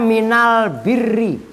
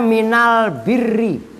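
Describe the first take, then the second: First: The article is said with an l sound. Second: The same.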